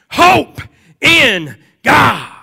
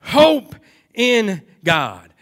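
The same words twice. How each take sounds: First: High, loud proclaiming shout; crying out. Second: Very slow, weighty "Hope in God" with a falling close; emphatic words. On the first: Acted. Preacher voicing David crying out his hope, loud and high. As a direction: fling HOPE out as a cry. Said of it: "He, he cries out". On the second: Shown as a demonstration. Preacher repeating the key words slowly to the congregation. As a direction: lean hard on "Hope", then let it fall. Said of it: "Those are the words that are emphatic here".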